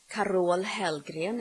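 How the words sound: The name is said with Swedish pronunciation.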